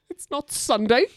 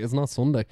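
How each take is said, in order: First: High, loud mock-stern reply through a laugh; quoting Toni Collette. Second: Said in the usual way. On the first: Friend quoting the film mum's refusal, high and laughing. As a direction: snap it like a weary mum refusing the cereal. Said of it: "And she goes". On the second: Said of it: "I'm just like".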